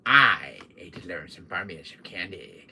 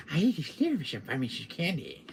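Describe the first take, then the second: First: Low delivery with emphasis on "I ate"; "I ate" stressed, the rest lower. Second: Said in the usual way. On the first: Shown as a demonstration. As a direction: lean on "I ate", pitched low. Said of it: "it's got a little emphasis on it". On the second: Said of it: "See, now I do it better".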